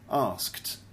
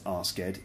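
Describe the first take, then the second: First: The ending is a plain t sound, one syllable. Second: The ending adds an extra id syllable. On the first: The speaker calls it right. "It's actually pronounced asked" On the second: The speaker calls it wrong. "it's not pronounced asked"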